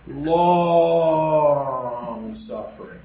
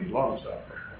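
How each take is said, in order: First: The words are said slowly and fully. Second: The words are said quickly and clipped. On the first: The speaker calls it right. "taught me to say long suffering" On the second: The speaker calls it wrong. "We say it real quickly"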